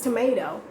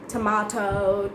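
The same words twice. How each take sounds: First: The middle T is pronounced soft and light. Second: The middle T is pronounced hard and strongly. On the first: The speaker calls it right. "it's going to be a really soft T" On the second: The speaker calls it wrong. "don't pronounce it like tomato"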